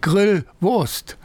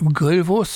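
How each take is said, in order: First: It is said as a spoken command. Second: It is said as one plain noun.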